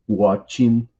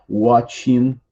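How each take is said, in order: No difference in how they are said.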